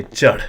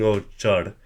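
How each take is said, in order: First: "Chad" short and loud with a lifted tone; slight tone increase. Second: Said in the usual way. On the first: Shown as a demonstration. Teacher contrasting with the toneless word, emphatic "Chad". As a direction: punch "Chad" with a push of breath. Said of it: "hear that slight increase in tone". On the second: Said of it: "Rather than saying".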